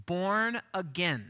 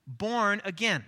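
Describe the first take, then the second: No difference in how they are said.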